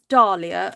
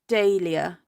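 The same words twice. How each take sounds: First: The first syllable sounds like 'dah'. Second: The first syllable sounds like 'day'. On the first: "D A R" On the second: "D A Y"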